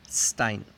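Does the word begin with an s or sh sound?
s. The word begins with a plain s sound. This is how speakers in the far north say it. "ahí tienen un acento donde no aplican esta regla y dirían Stein"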